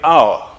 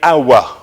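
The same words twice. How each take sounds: First: The word is said as one syllable. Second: The word is said as two syllables. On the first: "if I want one syllable" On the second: "If I want two syllables"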